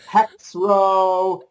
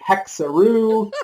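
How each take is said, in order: First: It is said in two syllables, starting with hex. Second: It is said in three syllables, rhyming with kangaroo. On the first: "They don't even try to pronounce it" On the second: "We've had people calling it Hexaroo, like kangaroo"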